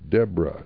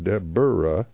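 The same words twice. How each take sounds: First: The name is said with two syllables. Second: The name is said with three syllables. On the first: The speaker calls it right. "So her name is Deborah" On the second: The speaker calls it wrong. "not Deborah"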